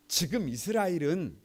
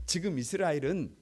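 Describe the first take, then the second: No difference in how they are said.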